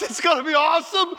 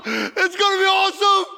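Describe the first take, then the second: First: High, bright joyful promise; excited. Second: Higher and louder, tearful joyful shout; crying out in joy. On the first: Jesus telling the thief what waits, excited. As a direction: say it with happy anticipation. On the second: Jesus promising paradise again, joyful shout. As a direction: cry it out, overwhelmed with joy. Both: Retold or imitated. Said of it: "He starts laughing out loud".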